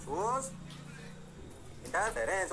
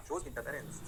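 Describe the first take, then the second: First: "Shows" then a long break before "interference"; teacher pausing so students can write; dictating with a pause. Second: Said in the usual way. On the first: Shown as a demonstration. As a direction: split the two words for dictation.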